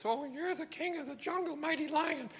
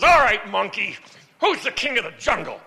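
First: Much higher and softer, cowering; timid monkey. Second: Loud, growling jungle-king demand; bullying lion. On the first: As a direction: squeak it out like a frightened little monkey. Scared monkey answers lion. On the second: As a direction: bark it out like a bossy lion. Lion bullies monkey in joke. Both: Acted.

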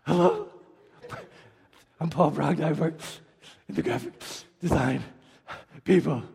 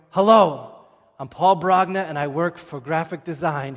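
First: Mock breathless, halting greeting; breathless stumble. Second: Said in the usual way. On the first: Nervous presenter choking on his intro, mock out of breath. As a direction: gulp air between words like after climbing stairs. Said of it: "he sounds like he walked up forty flights of stairs". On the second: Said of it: "instead of going".

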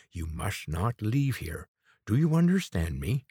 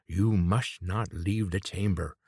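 First: "You must not leave here" slow, leaning on "leave"; slow insistent warning. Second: "You must not leave the chamber" slow, each word weighted; slow insistent warning. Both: A narrator's reading. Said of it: "the quavering voice".

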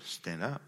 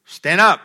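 First: Low and soft, gentle; soft command. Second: Shouted high and loud; loud command. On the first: Pastor showing Jesus saying it softly. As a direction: say it quietly, almost tenderly. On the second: Pastor showing Jesus commanding loudly. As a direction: bark the order to stand. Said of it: "I don't know if that's the way he said it". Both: Shown as a demonstration.

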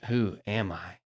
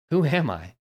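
First: Soft, humble asking; surrendered who am I; honest surrender. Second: Higher, pointed challenge; sharp questioning who am I; demanding tone. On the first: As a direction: let the question sink quietly. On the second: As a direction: throw the question out defiantly. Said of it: "Do you hear the tone difference?". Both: Shown as a demonstration.

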